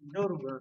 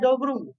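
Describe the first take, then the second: First: No b sound is heard before the r. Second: A b sound is heard before the r. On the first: The speaker calls it right. "Dibaca seperti ini, doru" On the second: The speaker calls it wrong. "Ini jangan dibaca dobru"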